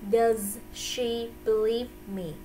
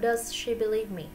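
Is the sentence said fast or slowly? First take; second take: slowly; fast. First: The sentence is said slowly and carefully. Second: The sentence is said quickly and smoothly. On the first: "phải đọc cực khổ một chút xíu" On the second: "Đọc nhanh cũng được"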